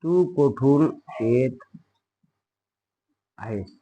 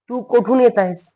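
First: Slow, softer, separated words; slow dictation. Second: Said in the usual way. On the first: Shown as a demonstration. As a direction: leave gaps for pupils to write. Teacher repeats slowly for dictation. (सावकाश, थांबत, हळू आवाजात)

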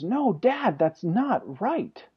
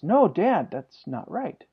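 First: Imitated child protest, high then dragged out slowly; emotional son. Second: Lightly voiced child correcting dad, pitched up then dropping; son objecting. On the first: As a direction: play a boy getting upset, stretching each word. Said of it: "he's starting to get emotional about it". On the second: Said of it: "when I get to the end, he says".

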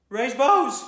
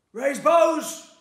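First: Higher, loud spluttered command; spluttered order. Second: Much higher, full-throated roar; roared order. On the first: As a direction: blurt the order out in a panic, loud and high. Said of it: "he spluttered". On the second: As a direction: bellow it across the line like a corporal. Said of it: "roared Corporal Grey". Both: A narrator's reading.

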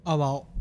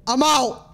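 First: Said in the usual way. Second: High, loud yell of fear; panicked shout. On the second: Real, not acted. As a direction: scream it and bolt. Panicked repeat of leaving.

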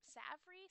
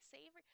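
First: "savory" with a short a, as in "savvy"; unsure pronunciation. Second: "savory" with a long a, as in "save"; unsure pronunciation. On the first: Struggling to read a word aloud, "savory" said SAV-uh-ree. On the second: Struggling to read a word aloud, "savory" said SAY-vuh-ree. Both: Real, not acted. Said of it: "I don't know how to say that".

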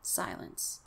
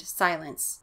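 First: Whispered, barely-there single word; very soft suspenseful hush. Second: Said in the usual way. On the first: A narrator's reading. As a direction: let it vanish into a whisper. Line repeated hushed for suspense.

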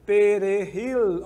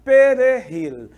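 First: Perejil slow, stress on JIL, falling; model pronunciation. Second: Perejil slow and louder, stress on JIL; teacher leads practice; model pronunciation. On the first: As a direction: draw out Perejil calmly. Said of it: "Vamos lá". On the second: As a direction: say Perejil slowly for the class. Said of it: "Vamos lá comigo". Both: Shown as a demonstration.

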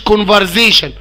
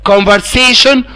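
First: كونفرزيشن said with a buzzing z, the common mistake; wrong z sound. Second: كونفرسيشن said with a clear s; s sound, not z. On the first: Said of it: "مش كونفرزيشن". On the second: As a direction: say كونفرسيشن with a sharp s sound, never z. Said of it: "حرف الاس ده بيتنطق اس". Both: Shown as a demonstration.

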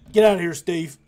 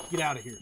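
First: Loud, raised yell to send him off; shouting after someone. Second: Said in the usual way. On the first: Pretend. Yelling after departing game character.

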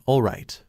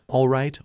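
First: "all right" dropping down at the end; second "all right" settling down in a fall; giving in, "all right" falling. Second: Resigned "All right" that climbs; rising all right. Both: A narrator's reading. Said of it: "he sighed".

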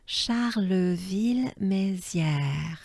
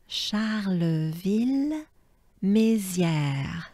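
First: Charleville-Mézières said slowly as a whole; slow model. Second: Charleville-Mézières drawn out very slowly; very slow model. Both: Shown as a demonstration. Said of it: "Let's try as a whole".

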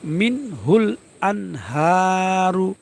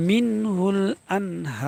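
First: আনহারু with হা held briefly, ending on a sounded "ru"; slow মিন হুল আনহারু, final u pronounced; full vowel ending. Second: হা in আনহার held very long, then a closed r; slow pausal মিনহুল আনহার; three-alif waqf. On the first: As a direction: finish আনহারু on the vowel, no pause form. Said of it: "র পেশ রু". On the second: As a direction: draw out আনহার and stop without the final u. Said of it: "তিন আলিফ টানতে হবে". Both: Shown as a demonstration.

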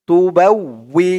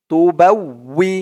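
Both takes have the same delivery.

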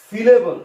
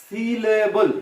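First: Said in the usual way. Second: সিলেবল stretched over three beats; syllable by syllable. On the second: Shown as a demonstration. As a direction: spell out সিলেবল slowly as সি, লে, বল. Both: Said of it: "কি বলা হয়?".

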